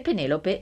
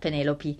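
First: The name ends with an 'e' vowel. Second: The name ends with an 'ee' vowel.

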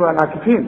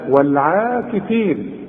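First: The vowel after the ain sound is short. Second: The vowel after the ain sound is long. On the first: The speaker calls it wrong. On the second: The speaker calls it right.

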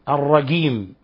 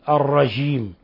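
First: The j is pronounced as a hard g. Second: The j is softened close to a sh sound. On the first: "إخواننا في مصر يقولون مثلا الجيم يقلبونها جيم" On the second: "وهذه أقرب إلى الشين"

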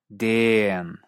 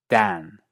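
First: The vowel is drawn out extra long, Australian style. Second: The vowel stays an open a, British style. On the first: "o incluso como una vocal extra larga" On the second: "En inglés británico estándar, curiosamente, se mantiene como A"

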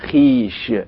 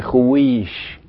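First: No w sound is heard after the kh. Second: A w sound is heard after the kh. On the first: The speaker calls it right. "إنما بنقول خيش" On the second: The speaker calls it wrong. "ما بنقولش خويش"

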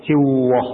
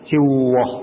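First: The r sound is rounded like a w. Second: The same.

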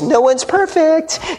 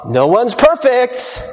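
First: It is said in a cutesy voice. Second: It is said in a normal voice.

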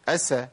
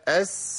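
First: The s is cut short without sustained breath. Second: The s is held long with flowing breath. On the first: The speaker calls it wrong. "ما أقولش أس" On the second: The speaker calls it right. "لازم أبين رخاوة السين الساكنة"

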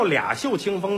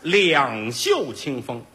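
First: The first syllable is pronounced lia. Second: The first syllable is pronounced liang. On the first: The speaker calls it wrong. "有叫俩袖清风的吗？" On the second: The speaker calls it right. "那个字正音应该念两"

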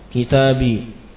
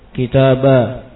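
First: The word ends in a plain long i sound. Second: The word ends in a long a sound. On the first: "Yang pertama disukun" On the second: "Yang ketiga diganti ya-nya menjadi alif"

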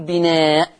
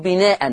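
First: The word ends abruptly on a bare glottal stop. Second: The word ends with an -an nunation sound. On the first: "ولا ينفع أقف بسكون الهمزة وأقول بناء" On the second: "لا ينفع أقف بتنوين، ما ينفعش أقول بناء، ما ينفعش أقف بالتنوين"

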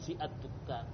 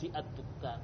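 First: The article's vowel is pronounced separately after fi. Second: The same.

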